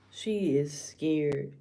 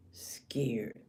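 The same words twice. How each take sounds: First: Said in the usual way. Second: Low, softly breathed repeat; hushed emphasis. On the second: Real, not acted. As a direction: drop to a near-whisper for effect.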